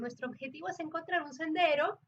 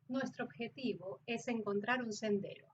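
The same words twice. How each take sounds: First: The voice stays up on the word before the comma. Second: The voice falls on the word before the comma. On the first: "dejas la frase o dejas la palabra antes de la coma arriba" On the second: "para el acento neutro, como ya ustedes lo vieron, las comas también descienden"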